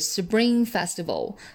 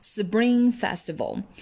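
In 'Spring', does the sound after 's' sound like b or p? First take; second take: b; b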